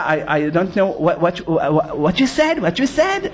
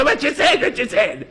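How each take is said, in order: First: Low, slow fake American accent; an Israeli pretending he knows no Hebrew, in a fake American accent. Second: Put-on the same words in a thick Israeli accent. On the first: Israeli in Manhattan feigning no Hebrew, in a put-on American accent. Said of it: "הוא עושה". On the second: Israeli joking with his friend at shul, in an Israeli accent. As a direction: drop the act, say it like an Israeli. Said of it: "אומר לו".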